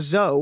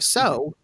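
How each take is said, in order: First: The word begins with a buzzing z sound. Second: The word begins with a hissing s sound. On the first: "if you were saying zo" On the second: "instead of so"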